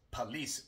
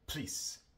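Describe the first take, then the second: First: The first unstressed vowel is fully pronounced. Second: The first unstressed vowel is dropped entirely. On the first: The speaker calls it wrong. "No decimos police normalmente" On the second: The speaker calls it right. "sino simplemente please"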